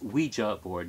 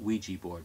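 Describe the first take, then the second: First: The word ends with a 'ja' sound. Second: The word ends with a 'jee' sound. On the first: The speaker calls it right. "it is Ouija board" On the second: The speaker calls it wrong. "not Ouija board"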